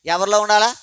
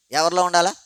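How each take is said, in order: First: ఎవరిలో ఉండాలా asked loud with ఉండాలా rising hard; emphatic question. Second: Said in the usual way. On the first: Shown as a demonstration. Preacher quizzing the church: loud rising ఉండాలా. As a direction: push ఉండాలా up, louder, to the congregation.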